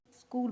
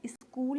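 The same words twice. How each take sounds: First: स्कूल said straight with आधा स, no इ in front; correct school. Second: स्कूल with an extra इ before it, इस्कूल; wrong school. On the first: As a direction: start स्कूल right on the स. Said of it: "स्कूल बोला जाएगा". (सही उच्चारण: स्कूल) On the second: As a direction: say स्कूल as इस्कूल, the common mistake. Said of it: "वो wrong है". (गलत उच्चारण: इस्कूल) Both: Shown as a demonstration.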